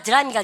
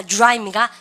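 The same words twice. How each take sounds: First: "드라이입니까" with a separate "deu" syllable; Koreanized DR. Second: "드라이입니까" starting with "joo-rai"; English DR sound. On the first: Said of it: "한국에서". ("드라이입니까"의 '드'를 글자대로) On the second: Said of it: "주죠". ("드라이입니까"를 '주라이'로 발음) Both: Shown as a demonstration.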